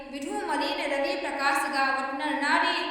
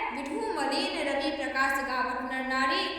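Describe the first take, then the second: Both takes have the same delivery.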